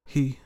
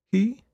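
First: Mother answering. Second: Put-on high, questioning child's voice; girl asking. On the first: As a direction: confirm HE gently, as an answer. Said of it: "her mother said". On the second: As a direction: ask HE as a high, puzzled question. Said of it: "the girl asked". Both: A narrator's reading.

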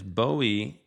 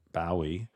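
First: "Bowie" with first syllable rhyming with go; American pronunciation. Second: "Bowie" with first syllable rhyming with cow; Manchester pronunciation. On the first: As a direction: say "Bowie" as BOH-ee, long o. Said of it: "Bowie is the correct pronunciation". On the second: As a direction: softly say "Bowie" as BOW-ee. Self-corrects to the Manchester pronunciation. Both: Shown as a demonstration.

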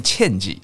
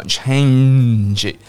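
First: Change said short, its middle nasal n swallowed; wrong pronunciation. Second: Change drawn out slowly with a long humming n; clear nasal n. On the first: Teacher showing learners what to avoid, change without its nasal. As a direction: clip the nasal sound out of change. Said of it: "不要念change啊". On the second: Teacher modelling change for learners, long clear nasal. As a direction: hold the nasal n in change before the final sound. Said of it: "不要忘记那个鼻音哦". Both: Shown as a demonstration.

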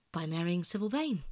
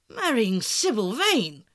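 First: Said in the usual way. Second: Loud, drawn-out exclamation of disbelief; amazed cry. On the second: A narrator's reading. Lord Henry hears of his friend's marriage plan, amazed cry. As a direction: cry the words out slowly, astonished. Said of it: "looking at him in perplexed amazement".

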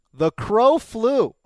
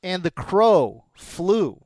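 First: Slow dramatic, raised. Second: Slow, drawn-out announcer line; slow dramatic. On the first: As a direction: proclaim it slowly and grandly. Repeated louder, higher. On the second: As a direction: savor each word slowly. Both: Acted.

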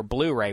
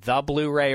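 First: Said in the usual way. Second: The article "the" set out before "Blu-ray"; stress on the article. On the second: Shown as a demonstration. Host weighs up a nickname for Kaepernick, stressing "the". Choosing between two nickname forms.

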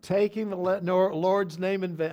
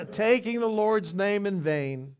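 First: Loud, high, tripping over "Lord's"; stumbling loud take. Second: "Taking the Lord's name in vain" loud, high and slow, every word placed; slow emphatic retake. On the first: Preacher to congregation, loud stumbling first try. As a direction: blurt it out and fumble the word. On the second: Preacher fixing his slip for the congregation, slow and loud. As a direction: say it again deliberately, clean and clear. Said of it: "I should have used Bob's name". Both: Real, not acted.

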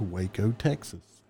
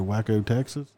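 First: Waco said WAY-koh; usual Waco pronunciation. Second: Waco said WACK-oh; Waco mispronounced for fun. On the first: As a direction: say Waco with a long A, as in "way". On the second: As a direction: say Waco like "wacko", short flat A, as a joke. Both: Retold or imitated. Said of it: "I said it differently".

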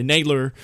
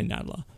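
First: "Nadler" pronounced NAYD-ler; Nadler with long A. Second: "Nadler" pronounced NAD-ler; Nadler with short A. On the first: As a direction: give "Nadler" the A of "day". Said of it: "or you can say Nadler". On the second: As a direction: give "Nadler" the A of "cat". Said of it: "I like to say Nadler". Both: Shown as a demonstration.

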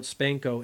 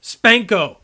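First: Said in the usual way. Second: Loud, high shouted catchphrase; retold shout. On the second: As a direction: shout it out like a gleeful battle cry. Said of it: "he would sometimes shout".

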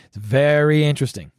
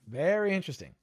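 First: Said in the usual way. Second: Much softer, musing repeat; pointed aside. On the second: Real, not acted. Repeating a suspicion to listeners, pointed soft aside. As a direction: drop the volume and draw out "Very".

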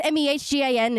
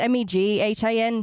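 First: M E H G A N spelt out, H before G; wrong spelling of MEGHAN. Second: M E G H A N spelt out, G before H; corrected spelling of MEGHAN. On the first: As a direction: spell out M E H G A N letter by letter. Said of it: "It's pronounced Megan, not". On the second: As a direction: spell out M E G H A N letter by letter. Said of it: "It's M E G H A N". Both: Shown as a demonstration.

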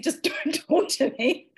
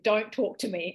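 First: Higher retold order broken by a laugh; amused mock insistence. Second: Said in the usual way. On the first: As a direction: repeat the order, cracking up as you quote it.

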